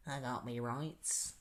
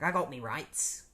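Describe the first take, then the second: First: Slow, quiet Australian accent; Captain Boomerang. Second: Slow mock British accent; drawn-out British-style delivery; Captain Boomerang. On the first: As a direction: softly drawl it in mock Australian. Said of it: "not an Australian way of speaking". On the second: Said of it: "a British way of speaking". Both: Shown as a demonstration.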